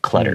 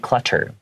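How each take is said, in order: First: The middle consonant is a soft D-like sound. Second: The middle consonant is a crisp hard T. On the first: "we make it more of a D sound" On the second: "You can't say clutter"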